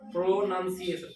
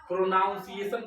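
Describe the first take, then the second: First: The second syllable sounds like 'nun'. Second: The second syllable sounds like 'noun'. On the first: The speaker calls it right. "प्रोनाउंसिएशन क्या बोलोगे?" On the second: The speaker calls it wrong. "प्रोनाउंसिएशन बोलते हो तुम लोग ना, प्रोनाउंसिएशन नहीं बोलना है इसको"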